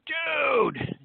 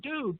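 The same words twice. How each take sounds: First: It sounds thrilled and excited. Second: It sounds like a relaxed, friendly greeting. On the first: The speaker has had great good fortune. "if you just won the Powerball lottery" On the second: The speaker is greeting someone. "If you were to say hello to somebody"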